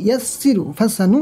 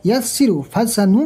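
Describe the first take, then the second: No difference in how they are said.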